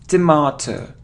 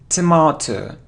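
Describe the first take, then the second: Both takes have the same delivery.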